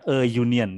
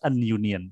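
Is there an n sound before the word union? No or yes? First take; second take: no; yes. First: No n sound comes before union. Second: An n sound comes before union. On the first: The speaker calls it right. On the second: The speaker calls it wrong. "Enggak pantas an union"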